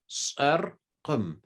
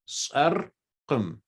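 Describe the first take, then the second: First: The middle q sound is clearly pronounced. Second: The same.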